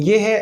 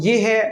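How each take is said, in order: Both takes have the same delivery.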